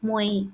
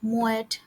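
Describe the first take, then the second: First: The word ends on a vowel, no t. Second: The word ends with a t sound. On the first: The speaker calls it right. "এটা হবে মোয়ে" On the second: The speaker calls it wrong. "এটা মোয়েট হবে না"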